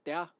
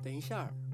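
First: It is said with a Taiwanese accent. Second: It is said with a mainland Chinese accent.

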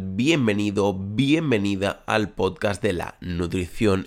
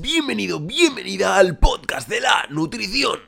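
First: It is said in his normal speaking voice. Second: It is said in an unusual, put-on voice.

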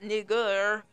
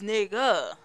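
First: The word ends with an 'er' sound. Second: The word ends with an 'ah' sound. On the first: The speaker calls it wrong. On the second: The speaker calls it right. "We change the to a ah"

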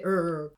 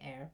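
First: The vowel sounds like 'ur'. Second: The vowel sounds like the start of 'error'. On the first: The speaker calls it wrong. "you don't say err" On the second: The speaker calls it right. "I say err. Because you say error"

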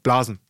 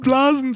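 First: It is said flatly, without emotion. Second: It is said with a giggle.

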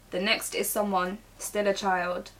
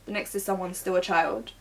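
First: There is a pause after someone. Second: It runs on with no pause after someone.

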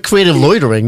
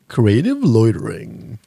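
First: It is said in his normal voice. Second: It is said in a put-on announcer voice.

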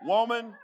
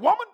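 First: It is said in a gentle, kind way. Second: It is said in a harsh, stern way.

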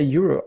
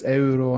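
First: Euro is pronounced the English way. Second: Euro is pronounced the Spanish way. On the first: "But Swedes say euro" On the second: "And in Spain and Italy, it's euro"

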